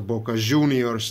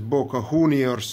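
First: The name is said with Argentine pronunciation. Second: The name is said without Argentine pronunciation.

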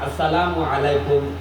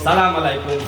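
First: The greeting is said in full, assalamu alaikum. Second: The opening syllable is dropped, giving salam alaikum. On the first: The speaker calls it right. "নামাজের মধ্যে ইমাম সাহেবের সাথে সালাম ফিরায় আসসালামু আলাইকুম" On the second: The speaker calls it wrong. "মুসলমান সালামও শুদ্ধ করে দিতে জানে না, সালাম আলাইকুম কি বলে"

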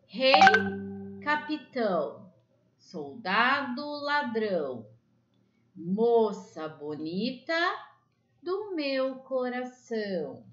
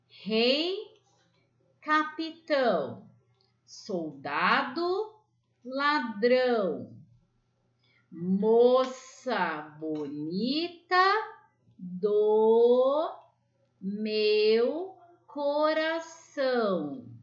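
First: The rhyme is recited at a quicker pace. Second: The rhyme is recited at a slow pace.

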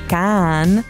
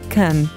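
First: The vowel is a full, long open sound. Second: The vowel is reduced to a short, weak sound. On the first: "En lugar de decir un sonido A largo" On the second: "lo reducimos a un sonido I corto"

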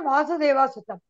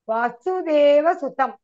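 First: The first vowel is long. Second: The first vowel is short. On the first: The speaker calls it wrong. "It's not" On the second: The speaker calls it right. "Va is a hrasva here"

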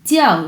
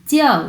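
No difference in how they are said.

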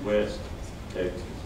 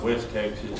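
First: A short pause separates the two words. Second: The two words run together without a pause. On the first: A town named West in the state. The speaker calls it right. "it's West Texas" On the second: The western region of the state. The speaker calls it wrong. "it's not West Texas"

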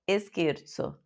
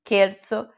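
First: A vowel sound comes before the initial s. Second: The word starts directly with a soft s. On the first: The speaker calls it wrong. "Põe um E na frente do S mudo" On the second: The speaker calls it right. "Não, é um soprinho"

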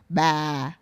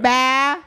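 First: The pitch falls across the syllable. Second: The pitch stays level across the syllable. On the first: It means grandma. "if you say with a downward tone" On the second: It means three. "And then neutral, you can say it bah"

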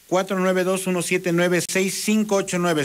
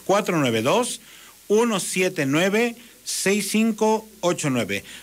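First: The number is read at normal speed. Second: The number is read very slowly.

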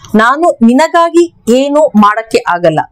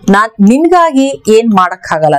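First: Every word is said fully and separately. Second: Words are shortened and run together casually.

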